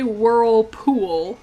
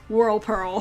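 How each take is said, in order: First: The second part sounds like 'pool'. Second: The second part sounds like 'pearl'. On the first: The speaker calls it right. "I never say Whirlpool" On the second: The speaker calls it wrong. "Like pearl. Like the gemstone"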